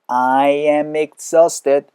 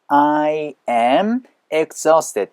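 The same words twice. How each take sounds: First: The m runs into exhausted, sounding like mix. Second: The words are said separately, without linking. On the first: "I am ex, mix, mix 사운드가 나면서" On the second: "이렇게도 되겠지만"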